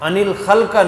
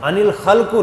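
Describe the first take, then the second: First: The last word ends with an a vowel. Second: The last word ends with an u vowel. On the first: "नहीं" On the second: "नहीं"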